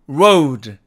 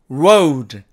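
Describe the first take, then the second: No difference in how they are said.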